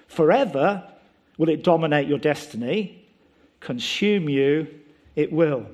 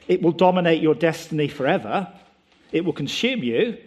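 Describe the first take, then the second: First: Lightly voiced Yoda, slowing on consume; mild Yoda delivery, words rearranged; Yoda word order. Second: Said in the usual way. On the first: Preacher showing how Yoda would say it. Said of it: "He loves rearranging the words". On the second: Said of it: "he doesn't declare".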